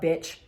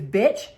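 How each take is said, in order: First: Low dismissive put-down with falling tune; retold insult. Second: Rising, questioning echo of an insult; incredulous echo. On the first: Man insulting a woman at the bar, dismissive put-down. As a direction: throw the insult away, falling. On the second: Retold or imitated. Woman challenging the man who insulted her, incredulous echo. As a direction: throw the word back as an offended question.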